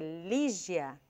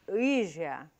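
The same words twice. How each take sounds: First: The name is articulated clearly and crisply. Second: The name is articulated heavily with a sluggish tongue. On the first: The speaker calls it right. "ao invés de dizer" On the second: The speaker calls it wrong. "Sai pesado, a língua parece que não, que está pesada e não realiza o movimento"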